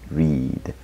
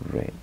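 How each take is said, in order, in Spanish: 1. La vocal es larga, como en green. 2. La vocal es corta, como el color red. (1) "Ese es el patrón que tenemos aquí" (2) "Esa es la pronunciación del verbo read en pasado"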